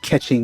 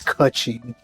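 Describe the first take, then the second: First: The first vowel sounds like 'eh'. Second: The first vowel sounds like 'oo'. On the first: The speaker calls it wrong. "I keep mispronouncing her name" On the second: The speaker calls it right. "when it's Kutching"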